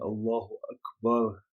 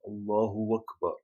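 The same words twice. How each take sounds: First: Akbar starts directly with its vowel, no w. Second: A w sound is added before Akbar. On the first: It proclaims that God is greatest. The speaker calls it right. "rather than Allahu Akbar" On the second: It changes the meaning or becomes meaningless. The speaker calls it wrong. "They will add a waw there"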